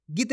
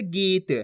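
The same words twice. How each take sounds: First: गीत cut short on the vowel. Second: गीत with the vowel drawn out; long ee in गीत. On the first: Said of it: "छोटी ई की मात्रा". (गीत में छोटी इ बोलकर) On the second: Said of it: "पढ़ना आपको खींच के". (गीत की ई खींचकर) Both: Shown as a demonstration.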